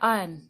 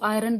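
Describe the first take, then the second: First: No r sound is pronounced in the middle. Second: An r sound is pronounced in the middle. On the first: The speaker calls it right. "जबकि वो क्या होता है, आयन होता है" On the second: The speaker calls it wrong. "तो आयरन को आयरन बोलेंगे"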